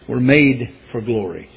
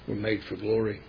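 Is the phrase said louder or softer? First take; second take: louder; softer. First: It is said at a louder volume. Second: It is said at a quieter volume.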